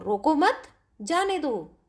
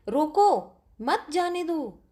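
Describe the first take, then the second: First: रोको मत run together, then जाने दो; pause after मत. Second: रोको set apart, then मत जाने दो together; pause after रोको. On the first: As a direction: break after मत, setting जाने दो apart. (रोको मत एक साथ, फिर विराम, फिर जाने दो) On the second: (रोको के बाद विराम, फिर मत जाने दो एक साथ) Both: Shown as a demonstration. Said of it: "शब्दों को रुक रुक कर बोला जाता है".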